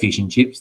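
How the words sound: It is said with Australian vowels. "we say fish and chips"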